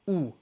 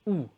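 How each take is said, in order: Both takes have the same delivery.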